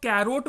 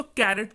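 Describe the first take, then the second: First: कैरोट with a long O in the second syllable; wrong pronunciation. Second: कैरेट with a short E in the second syllable; correct pronunciation. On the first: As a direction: say कैरोट, ending in "-rote". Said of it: "कैरोट मत पढ़िएगा". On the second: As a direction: say कैरेट, ending in "-ret". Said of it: "इसको कैरेट पढ़िएगा". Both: Shown as a demonstration.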